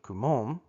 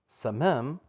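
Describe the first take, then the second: First: The word begins with a hard K sound. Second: The word begins with an S sound. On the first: The speaker calls it wrong. "how we pronounce it" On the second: The speaker calls it right. "it's actually the C as a samic, like an S sound"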